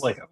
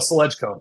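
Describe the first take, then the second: First: The first syllable sounds like 'slay'. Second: The first syllable sounds like 'sledge'. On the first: The speaker calls it right. "Say it, say it properly" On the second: The speaker calls it wrong. "the first time I was like, "Oh, Sledgeco.""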